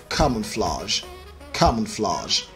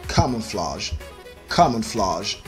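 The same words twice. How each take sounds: No difference in how they are said.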